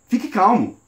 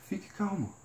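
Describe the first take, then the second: First: The voice is higher, breathless and tense. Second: The voice is lower, slow and relaxed. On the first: The words and the delivery contradict each other. The speaker calls it wrong. "Eu estava falando com uma tonalidade de voz mais alta, eu estava mais ofegante" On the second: The words and the delivery match each other. The speaker calls it right. "eu estou me acalmando"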